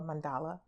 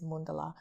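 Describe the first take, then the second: First: The word is said the common English way. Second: The word is said the Sanskrit way. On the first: "as everyone says" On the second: "the pronunciation in Sanskrit is mandala"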